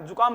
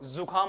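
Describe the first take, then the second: First: The word begins with a plain j sound. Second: The word begins with a buzzing z sound. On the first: The speaker calls it wrong. "जुकाम नहीं होती" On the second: The speaker calls it right. "वो जुकाम होती है, इसको ऐसे बोलते हैं ना"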